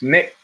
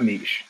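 First: "Nick" said with a short i, unlike neesh; "Nick" as the short-vowel take on niche; corrected pronunciation. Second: "niche" said as NEESH, long ee and soft sh; "niche" pronounced the French way, as neesh; rejected pronunciation. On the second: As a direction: say "niche" to rhyme with leash. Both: Retold or imitated. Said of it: "'cause it's not niche".

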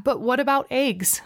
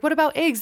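First: Said in the usual way. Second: "What about eggs?" tossed off high and dismissive; mocking people. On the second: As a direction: parody the people who wave it off. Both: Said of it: "a lot of people are like".

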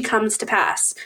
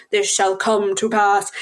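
First: Said in the usual way. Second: Slow mock-prophetic pronouncement; solemn quotation. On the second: Friend quotes a half-remembered fantasy line, solemn and slow. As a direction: intone it grandly, word by word. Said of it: "a reference to something?".

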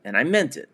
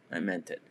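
First: Said in the usual way. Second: "I meant it" said much softer and lower, almost to himself; softly stressing "meant" in "I meant it"; quiet sincere repeat. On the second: Real, not acted. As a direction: drop the voice to affirm "I meant it".

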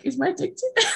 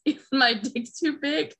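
First: High-pitched, giggly eager question; mock excitement. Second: Higher-pitched tentative question; mild mock concern. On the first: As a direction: imitate him getting thrilled, half laughing. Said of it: "he gets so excited". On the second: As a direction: imitate him checking, a little worried. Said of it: "he gets kinda concerned".

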